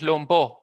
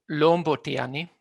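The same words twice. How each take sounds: First: BO in "lombo" carries the accent; stress on second syllable. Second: LOM in "lombo tiani" carries the accent; stress on first syllable. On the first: Linguist showing the normal form in other contexts, final stress on "lombo". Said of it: "Normalmente es lombo". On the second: Linguist giving an example with ani, first-syllable stress on "lombo". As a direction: hit LOM, let "bo tiani" follow unstressed. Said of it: "se realiza el acento en la primera sílaba". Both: Shown as a demonstration.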